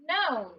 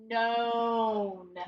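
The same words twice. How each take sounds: First: Said in the usual way. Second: Known with the O held long; drawn-out blending. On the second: Shown as a demonstration. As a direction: stretch the O in known as you blend it. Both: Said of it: "He's saying O".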